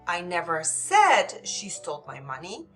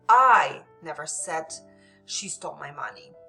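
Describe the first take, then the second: First: The stress falls on the word said. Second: The stress falls on the word I. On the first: It was implied but not said outright. "Maybe they implied it, but I didn't say it, it uh, outright" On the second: Someone else said it, not the speaker. "So this would indicate someone else's might have said it, but not me"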